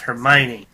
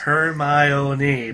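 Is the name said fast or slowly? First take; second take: fast; slowly. First: The name is said quickly. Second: The name is said slowly.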